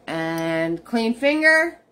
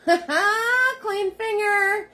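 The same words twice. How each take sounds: First: Said in the usual way. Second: Much higher, slow and playful, through a laugh; a goofy high-pitched giggle repeat; silly squeaky voice. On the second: Pretend. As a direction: squeak out "Clean finger" slowly, giggling.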